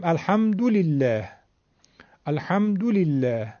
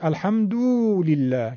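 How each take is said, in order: First: الحمدلله with short 'du', 'al-hamdu-lillah'; Arabic short damma. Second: الحمدلله with 'du' drawn into long 'doo'; overstretched damma. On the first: Teacher giving damma example, short 'du' in الحمدلله. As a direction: keep 'du' in الحمدلله unstretched. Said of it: "اگه بخواد بیشتر بشه". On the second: Teacher showing damma becoming vav, long 'doo' in الحمدلله. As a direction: wrongly lengthen 'du' in الحمدلله. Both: Shown as a demonstration.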